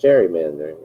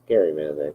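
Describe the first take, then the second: First: The word begins with a soft J sound. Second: The word begins with a hard G sound. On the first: The speaker calls it wrong. "not gerrymandering. It's not a J" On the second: The speaker calls it right. "It's gerrymandering. it's a G"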